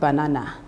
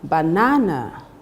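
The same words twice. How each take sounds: First: The stress is not on the second syllable. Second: The stress is on the second syllable. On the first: The speaker calls it wrong. "not banana" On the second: The speaker calls it right. "the correct pronunciation would be banana, ... the second syllable is stressed"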